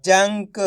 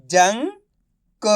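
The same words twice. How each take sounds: First: "जंक" blended into one word; sounds joined. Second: "जंक" split slowly, pause before क; syllable by syllable. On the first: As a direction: say "जंक" whole, without the pause. ("जंक" मिलाकर एक शब्द में) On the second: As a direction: sound out "जंक" as जं, then क. ("जंक" को तोड़कर, धीरे-धीरे) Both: Shown as a demonstration. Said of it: "तो मिलके बन जाएगा".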